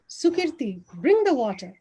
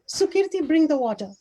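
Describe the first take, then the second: First: The word water carries the main stress. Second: The word Sukirti carries the main stress. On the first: The message is about what should be brought. "one on water" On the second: The message is about who should do it. "one on Sukirti"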